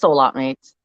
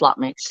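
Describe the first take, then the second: First: The phrase is said slowly and fully. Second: The phrase is said fast and run together. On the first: "but it's soulmate mates" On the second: "If you say it fast enough, it's, it becomes slot mates"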